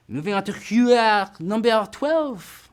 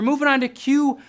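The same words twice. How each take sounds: First: Hammed-up, badly faked French accent. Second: Said in the usual way. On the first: Quiz host clowning between questions, bad French accent. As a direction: put on a terrible mock-French accent. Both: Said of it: "This is probably the worst French accent".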